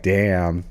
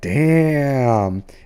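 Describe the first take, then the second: First: It sounds disappointed and unimpressed. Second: It sounds impressed and admiring. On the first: Something is lacking. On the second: Something is admirably good.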